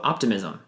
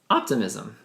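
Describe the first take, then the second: First: The word is said flatly, without excitement. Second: The word is said excitedly, like an exclamation. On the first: The speaker calls it wrong. "Did I say that right?" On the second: The speaker calls it right. "There we go. That's better"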